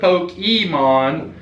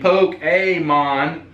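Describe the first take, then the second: First: The middle syllable sounds like 'ee'. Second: The middle syllable sounds like 'ay'. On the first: The speaker calls it wrong. "instead of" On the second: The speaker calls it right. "the Fonz used to go, "Ay.""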